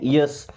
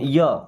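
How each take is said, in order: First: The word ends with a clear s sound. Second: The word ends on an open vowel, no s. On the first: "अब इसे Y यस क्या पढ़ते हैं? यस।" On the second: "हम चाहे तो इसे या बोल सकते हैं"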